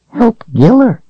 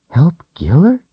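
First: Very high, tiny doll voice; sweet little toy giving advice. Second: Put-on higher, questioning young girl; puzzled little girl. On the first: Acted. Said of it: "the doll said". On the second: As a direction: echo it back, confused. Rachel echoes the doll puzzled.

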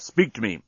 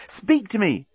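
First: Said in the usual way. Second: High, urgent plea. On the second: A narrator's reading. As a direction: plead urgently, pitch lifted well up. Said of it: "A note of urgency had crept into Nettie's voice".

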